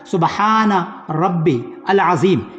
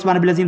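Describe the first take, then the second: First: It is said slowly with pauses between words. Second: It is rushed quickly without pauses.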